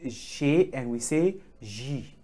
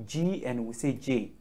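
First: G as "zhay", J as "zhee"; French G and J. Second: G as "jee", J as "jay"; hard j on both, G "jee" and J "jay"; English G and J. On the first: Teacher contrasting alphabets, French G "zhay", J "zhee". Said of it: "in French we say". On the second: Teacher repeating for students, English G "jee", J "jay". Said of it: "in English we say". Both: Shown as a demonstration.

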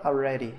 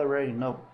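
First: "already" with its first vowel sounded, "a-redy"; full form. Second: "already" clipped to "redy", joined to "know"; reduced form. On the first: Teacher showing what the native doesn't say, full pronunciation. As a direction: say every syllable of "already". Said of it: "Ele não fala already". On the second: Teacher showing what the native really says, reduced pronunciation. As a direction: swallow the start of "already". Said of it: "Fala already know". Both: Shown as a demonstration.

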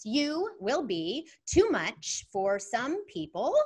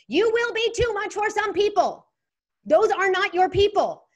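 First: Slow deliberate reading. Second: Louder and higher, declaring it with full conviction; emphatic. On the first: Shown as a demonstration. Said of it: "And it goes like this". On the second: Acted. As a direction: proclaim it like a rallying cry. Repeating the meme with force.

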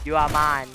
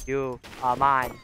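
First: Loud, punchy gamer taunt; loud mock threat to the enemy; louder taunt. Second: Slow, drawn-out gamer taunt; slow teasing threat to the enemy. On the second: Acted. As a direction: lean on each word, slowly. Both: Taunting an opponent.

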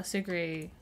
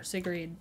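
First: Sigrid with a silent d, ending in "ee"; guessed pronunciation. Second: Sigrid with the final d sounded; alternative pronunciation. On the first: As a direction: say Sigrid as "SIG-ree". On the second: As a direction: say Sigrid as "SIG-rid". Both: Shown as a demonstration. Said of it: "however you say her name".

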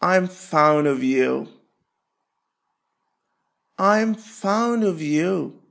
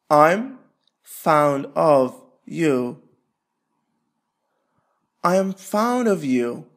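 Both takes have the same delivery.

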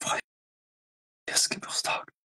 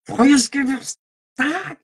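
First: Slow, breathy whispered menace; menacing whisper. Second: Mock aggressive German, high and barked. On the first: Acted. Streamer staring at viewers, slow menacing whisper. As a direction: whisper it while staring them down. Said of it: "fixing you in the eyes". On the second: Streamer mocking how German sounds, hammed-up harsh barking. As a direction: bark "Freies Geburtstag!" like a harsh German order. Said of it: "in German it sounds like sehr aggressiv".

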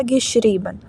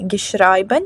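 First: Said in the usual way. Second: "geschrieben" mispronounced with "ai" as in "schreiben"; wrong vowel. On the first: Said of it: "«і». Geschrieben. Не geschrieben, а geschrieben". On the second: Shown as a demonstration. Teacher showing learners the wrong participle, "geschrieben" mispronounced with an "ai" vowel. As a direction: say "geschrieben" as "ge-SHRY-ben". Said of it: "«ай» змінилося на «і»".

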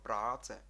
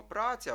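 First: "праце" with the A held long, praa-tse; long vowel. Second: Said in the usual way. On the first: Shown as a demonstration. Teacher showing how Czechs say the word, long vowel. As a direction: stretch the first vowel of "праце". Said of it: "трошки вимовити довше". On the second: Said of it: "Ми кажемо праця в українській мові".

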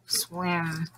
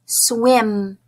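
First: Lower, softer puppet repeating; quiet puppet echo. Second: Said in the usual way. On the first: Shown as a demonstration. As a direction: echo it back as Steve. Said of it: "You and Steve will repeat". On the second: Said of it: "repeat the word after me".

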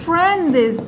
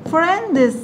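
No difference in how they are said.

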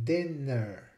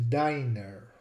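First: Dinner softly, with short I as in "din"; dinner, short I and short E, set apart; short, Latin-like vowels. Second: Diner with the I said as "eye"; diner, rhyming with "finer"; long I. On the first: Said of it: "just like in Old Latin". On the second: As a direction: say diner with a long first vowel. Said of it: "So the I becomes long". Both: Shown as a demonstration.

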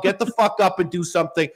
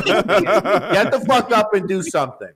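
First: Rough scolding command; blunt scolding order. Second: Slow, laughing command; slow laughing order. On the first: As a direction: bark the order at the listener. Tough-love rant at listeners. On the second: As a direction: drag out each word with a laugh. Repeats the order, slower, laughing. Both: Acted.

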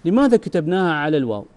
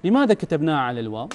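First: Teacher posing the question deliberately; emphatic question. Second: لماذا hit, then the line runs fast and rises at الواو; brisk quizzing of the class; quick rising question. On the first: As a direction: ask لماذا كتبناها على الواو with a firm, falling close. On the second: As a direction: toss off لماذا كتبناها على الواو quickly with a rising end. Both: Shown as a demonstration. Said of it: "السؤال".

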